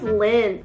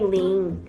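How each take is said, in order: First: The vowel is short, as in 'lin'. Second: The vowel is long, like in 'lean'. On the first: The speaker calls it right. "my name is Lynn" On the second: The speaker calls it wrong. "you always call me Lin"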